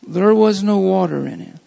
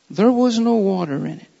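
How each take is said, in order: First: "there was no water in it", said with deliberate emphasis; emphatic reading. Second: Said in the usual way. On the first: Shown as a demonstration. Preacher underlining a verse for the congregation, emphatic. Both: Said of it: "And I'm emphasizing".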